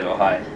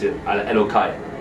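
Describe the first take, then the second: First: The middle consonant is a soft h sound. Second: The middle consonant is a hard k sound. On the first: The speaker truly means the name of God. "for me to say it with full intention, I'll say Elohai" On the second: The speaker is only practicing and does not mean it. "when I'm just practicing and I'm not really feeling it"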